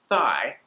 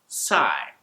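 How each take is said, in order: First: The word begins with a th sound. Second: The word begins with an s sound. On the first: "instead of the word thigh" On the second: "pronouncing it as an S instead"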